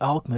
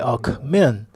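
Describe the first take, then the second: First: The stress is on the first syllable. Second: The stress is on the last syllable. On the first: The speaker calls it wrong. "with an emphasis on the first syllable, you don't win the election" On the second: The speaker calls it right. "place the emphasis on the last syllable"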